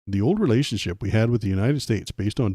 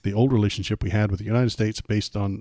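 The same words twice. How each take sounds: First: It is read in a put-on Canadian accent. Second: It is read in the speaker's ordinary accent.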